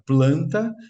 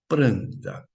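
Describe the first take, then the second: First: The word begins with a 'pl' sound. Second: The word begins with a 'pr' sound. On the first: This is the current standard form. "Antes de falar planta" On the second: This is the older medieval form. "nós dizíamos pranta"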